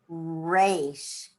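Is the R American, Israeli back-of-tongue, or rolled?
American. The R is an American R.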